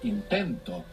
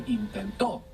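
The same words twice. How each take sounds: First: The stress is on the second-to-last syllable. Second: The stress is on the last syllable. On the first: I try. "the accent is just before it" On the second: He tried. "if I put the accent on the end, it means something else"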